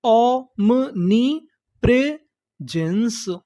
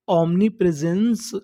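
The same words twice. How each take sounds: First: "omnipresence" very slowly, with gaps between syllables; broken into syllables. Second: Said in the usual way. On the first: Shown as a demonstration. Teacher building the last word, syllable by syllable. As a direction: sound out "omnipresence" in separate chunks. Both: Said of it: "टुकड़ों में तोड़-तोड़ के पढ़ना है".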